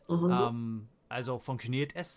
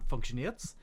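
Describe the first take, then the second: First: The word 'es' is said as a full syllable. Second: The word 'es' is shortened to a final s. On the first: "statt funktioniert es" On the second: "sagt man funktioniert's"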